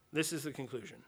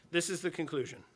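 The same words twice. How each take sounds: First: Quieter repeat. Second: Said in the usual way. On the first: Real, not acted. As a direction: drop to a softer echo of the line. Repeats the conclusion line twice.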